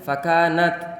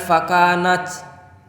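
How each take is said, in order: First: The final t is crisp with little hiss. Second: The final t has a strong hissing release. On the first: The speaker calls it right. "ujung lidah kita ada di belakang gigi seri bagian atas" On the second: The speaker calls it wrong.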